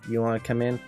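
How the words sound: The voice sounds cold and unwelcoming. The visitor should leave. "please don't come in. Just, just go"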